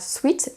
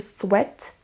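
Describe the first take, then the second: First: The word is pronounced with a French-style vowel. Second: The word is pronounced with an English-style vowel. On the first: The speaker calls it wrong. "En anglais, on ne dit pas sweat" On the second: The speaker calls it right. "mais to sweat"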